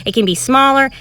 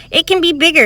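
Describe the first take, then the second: First: Said in the usual way. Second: Bigger, higher voice. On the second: Shown as a demonstration. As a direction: lift the voice to sell bigger. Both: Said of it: "It doesn't have to be as high or as jumpy".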